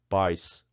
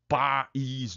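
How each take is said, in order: First: The vowels glide together in one syllable. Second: The vowels are split into two syllables. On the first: "uma sílaba só, de tongo, só o A forte, o I oprimido" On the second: "duas sílabas aqui, ó, separadinha, duas vogais fortes"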